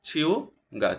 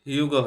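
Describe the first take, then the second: First: The word begins with a ch sound. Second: The word begins with an h sound. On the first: The speaker calls it right. "এটার উচ্চারণটা হবে ছিউগা ছিউগা" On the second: The speaker calls it wrong. "Normally উচ্চারণ করতে যাইতাম তাহলে হিউগা হিউগা হয়তো, আসলে এটার উচ্চারণটা এরকম হবে না"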